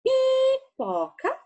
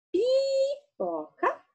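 First: Pipoca stretched slow and high; teacher modelling Pipoca slowly; slow syllable demo. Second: Pipoca stretched slow and high again; teacher repeats Pipoca slowly; slow syllable demo. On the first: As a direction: sound out Pipoca syllable by syllable, rising. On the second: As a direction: draw out Pipoca so the pi is clear. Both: Shown as a demonstration. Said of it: "Pode olhar a boquinha".

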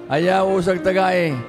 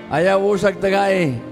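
Both takes have the same delivery.

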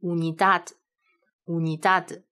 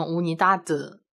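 First: Slow "Unidad" with the final d barely touched; light final d. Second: "unidad" with the final d released too heavily, as an added vowel; overly heavy ending. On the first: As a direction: say "Unidad", passing lightly over the last d. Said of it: "一定要一带而过". (词尾 d 一带而过、不要太重) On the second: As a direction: overdo the last d of "unidad" into a full "de". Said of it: "这个就有点太重了啊". (故意把词尾 d 读得太重) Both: Shown as a demonstration.

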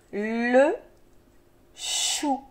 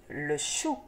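First: "Le chou" drawn out, long l and long ch; syllable by syllable. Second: Said in the usual way. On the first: Shown as a demonstration. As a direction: hold "Le", pause, then slide slowly into "chou". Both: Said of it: "des syllabes qui se donnent la main".

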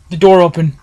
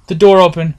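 Both takes have the same delivery.

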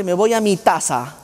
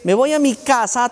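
First: "taza" said with t for "casa"; child's mix-up, "taza" not "casa"; mock child error. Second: Said in the usual way. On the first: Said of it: "te dice". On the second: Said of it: "el que en vez de decirte".

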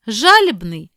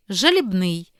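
First: Жалібний as ZHA-libnyi; first-syllable stress. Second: Жалібний as zhalib-NYI; last-syllable stress. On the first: Teacher reading double-stress words, first-syllable stress on Жалібний. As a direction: hit ZHA loudly in Жалібний. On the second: Teacher giving the other variant, final stress on жалібний. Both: Shown as a demonstration. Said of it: "слова із подвійним наголосом".

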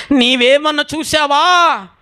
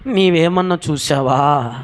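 First: High, drawn-out cry; loud anguished plea. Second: Said in the usual way. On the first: Acted. Grieving Mary asks if he has seen Jesus, crying out. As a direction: cry the question out high and long. ఈ తల్లి అంటుంది.

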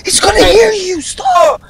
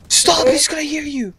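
First: High, urgent squeal; panicked pleading. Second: Soft, urgent warning; hushed pleading. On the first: Panicking dad will hear teammate. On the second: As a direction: plead under the breath. Hushed repeat so dad won't hear. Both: Real, not acted.

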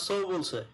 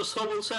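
First: সো gliding from o into u, like "sou"; diphthong in সো. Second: সো with a pure, unglided o; Bangla-style সো. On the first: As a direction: round off the vowel of সো into a short u glide. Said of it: "ওটা ও উচ্চারণ হবে". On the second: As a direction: say সো with one steady Bangla vowel, no glide. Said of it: "আমাদের মতো সো বলছে". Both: Shown as a demonstration.

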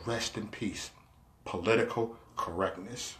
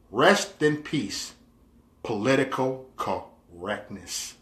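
First: Low, very soft solemn send-off; mock eulogy. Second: Slow, spaced-out solemn reading; mock eulogy. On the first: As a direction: lay it to rest in a hushed, low voice. Repeats the mock-mourning status. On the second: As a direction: draw each word out, sinking lower and softer. Reading out a mock-mourning status.

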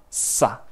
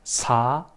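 First: "sa" with a long hissed, tense s. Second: "sa" with a light, relaxed s; plain normal SA. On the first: Teacher showing students that sound, tense hissed sa. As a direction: hold the s, then a short tight a. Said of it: "más fuerte". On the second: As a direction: say sa easily, vowel lifted. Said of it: "piensa que sa normal". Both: Shown as a demonstration.

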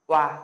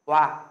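First: "oa" repeated as one smooth glide from o to a, not as loud; teacher repeats the sound "oa"; pronunciation repeat. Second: "oa" said loudly as one glide, o into a; loud teacher's model of "oa"; pronunciation demo. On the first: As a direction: model "oa" again for the class to copy. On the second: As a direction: call out "oa" clearly for the class. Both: Shown as a demonstration. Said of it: "Các bạn sẽ phát âm là".

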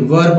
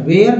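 First: WERE with a central 'er' vowel, like 'wur'; short neutral vowel in WERE; were, the correct reading. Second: WHERE with a long 'ay' vowel, like 'vey-ar'; where, the wrong reading. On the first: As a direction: say WERE as 'wur', not 'where'. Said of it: "याद रखिए, were पढ़ना है". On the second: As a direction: say WHERE as the misreading of 'were'. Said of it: "where नहीं पढ़िएगा". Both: Shown as a demonstration.

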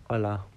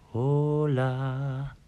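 First: Said in the usual way. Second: Put-on Spanish accent.

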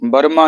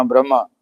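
First: ਬ੍ਰਹਮਾ split as ber-ma with an extra vowel after b; wrong pronunciation. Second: ਬ੍ਰਹਮਾ with the br cluster joined, brə-ma; correct pronunciation. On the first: Teacher showing the sangat the mistaken bər-ma for ਬ੍ਰਹਮਾ. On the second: Teacher giving the sangat the right brə-ma for ਬ੍ਰਹਮਾ. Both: Shown as a demonstration. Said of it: "ਇਹਨੂੰ ਵੀ ਬ੍ਰਹਮਾ ਨਹੀਂ ਕਹਿਣਾ".

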